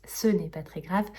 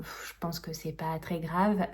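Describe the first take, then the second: First: "ce n'est pas très grave" said as a firm, deliberate assertion; firm self-correction. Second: Said in the usual way. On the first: Real, not acted. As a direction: stress "ce" and state it firmly. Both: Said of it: "c'est pas que je pense".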